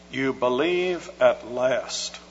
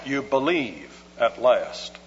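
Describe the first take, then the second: First: "You believe at last," read slowly as an exclamation, weight on "believe". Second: "You believe at last." as a flat statement, falling on "believe"; declarative statement. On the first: Preacher quoting the NIV's exclamation, slow and emphatic. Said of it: "with an exclamation point after it". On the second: Preacher showing the verse as a plain statement, falling. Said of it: "a declarative statement like that". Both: Shown as a demonstration.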